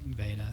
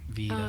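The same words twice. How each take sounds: First: The first vowel is a short E sound. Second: The first vowel is a long E sound. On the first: The speaker calls it right. "but Veda" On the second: The speaker calls it wrong. "long E Veda"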